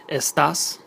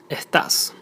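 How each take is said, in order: First: Estás with a clear, hissed s; standard estás. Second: Estás with the s breathed out as an h, like ehtás; Argentine estás. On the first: Teacher showing the standard estás with s. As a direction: say estás with a full s sound. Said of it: "instead of". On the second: Teacher modelling the Argentine h for s in estás. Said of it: "pronounced like an H sound". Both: Shown as a demonstration.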